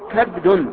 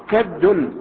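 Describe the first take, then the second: The two takes are said the same way.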